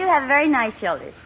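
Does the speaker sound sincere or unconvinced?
unconvinced. It sounds flat and unconvinced.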